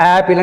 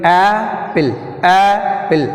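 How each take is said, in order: First: Said in the usual way. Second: Apple with a long, forceful first vowel, then a falling end; first-syllable stress. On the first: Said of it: "stress mark లేకుండా". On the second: Shown as a demonstration. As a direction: hold and push the start of Apple. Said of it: "ఏ గట్టిగా పలుకుతున్నాం కదా".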